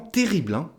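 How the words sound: The voice sounds enthusiastic and lively. The restaurant is very good. "on met de l'enthousiasme dans la phrase"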